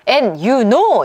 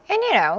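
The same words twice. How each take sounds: First: It is said slowly with 'know' stressed. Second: It is said quickly and lightly, unstressed. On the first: The speaker calls it wrong. "이게 아니라 요 know는 내용어잖아요. 이러면서 이렇게 하면 안 되고" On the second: The speaker calls it right. "이렇게 굉장히 빠르게 훅훅 지나가면서 대충 처리하세요"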